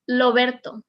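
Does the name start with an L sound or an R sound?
L sound. The name starts with an L sound. The speaker calls it wrong. "You will never hear Loberto"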